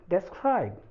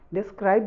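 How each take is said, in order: First: The first syllable has an 'eh' vowel. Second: The first syllable has an 'ih' vowel. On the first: "तो ये हो गया डेस्क्राइब" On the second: "डिस्क्राइब भी बोलें चलेगा"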